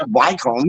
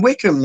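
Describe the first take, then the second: First: "Wycombe" as WHY-comb, quoted back; "Wycombe" read as spelt, why-combe; Wycombe mispronounced. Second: "Wickham" as WICK-um, short i; "Wickham" rhyming its first part with stick; Wycombe corrected to "Wickham". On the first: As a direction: say "Wycombe" with long i and long o. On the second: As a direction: say "Wickham" with a reduced second syllable. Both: Retold or imitated. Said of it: "It's fucking Wickham".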